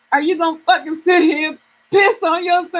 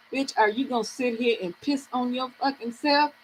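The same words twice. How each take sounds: First: Emphatic self-scolding in full voice; scolding herself. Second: Scolding herself. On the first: Woman repeating her challenge to herself, more forceful self-scolding. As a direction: tell yourself off, punching the words. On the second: Woman privately challenging herself to get up, quiet self-scolding. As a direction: softly tell yourself off. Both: Retold or imitated. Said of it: "I had to talk to myself".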